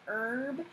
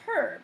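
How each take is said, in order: First: The word starts without an audible H sound. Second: The word starts with an audible H sound. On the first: "the H is like a forced silence in the back of the throat" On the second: "I have a lot of friends who are European"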